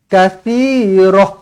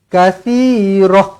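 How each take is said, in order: First: The word ends with an h sound. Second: The same.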